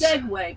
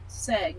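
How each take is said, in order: First: The word is said in full, with two syllables. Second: The word is cut short to one syllable. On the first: This is the intended form of the word. "he meant segue" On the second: This is how someone else said it on the radio. "but he said seg"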